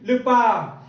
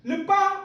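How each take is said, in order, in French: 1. Le mot se prononce avec un ton bas. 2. Le mot se prononce avec un ton haut. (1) "qui signifie détester ou haïr" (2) "avec le ton haut"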